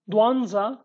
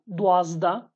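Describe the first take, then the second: First: Dwanza with an nz in the middle; Slemani pronunciation. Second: Dwazda with a zd in the middle; Hawleri pronunciation. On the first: Teacher repeats twelve in Slemani, nz in Dwanza. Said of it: "is in Slemani dialect". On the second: Teacher repeats twelve in Hawleri, zd in Dwazda. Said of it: "after the comma is Hawleri dialect". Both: Shown as a demonstration.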